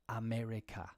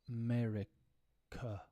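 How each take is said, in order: First: The first vowel is a full, clear vowel. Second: The first vowel is a weak 'uh' schwa. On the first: The speaker calls it wrong. "we don't say, for example" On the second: The speaker calls it right. "if I say it very slow, I'll say uh"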